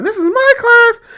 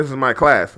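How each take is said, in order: First: High, drawn-out mocking teacher voice; lightly hammed-up teacher yell. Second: Said in the usual way. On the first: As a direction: parody her as shrill and overdramatic. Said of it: "talking about she's yelling". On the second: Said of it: "I don't think she was yelling".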